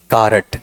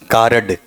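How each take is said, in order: First: कारट said as ka-rat, with a vowel between r and t; कारट, two syllables, ending in a hard t; local pronunciation. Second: कार्ड said as one syllable with a final d; plain English कार्ड, short and clipped; standard card. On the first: Teacher to class, local pronunciation कारट. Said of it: "कई कारट भी बोलते हैं". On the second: Teacher to class, standard pronunciation कार्ड. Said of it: "कार्ड भी नहीं". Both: Shown as a demonstration.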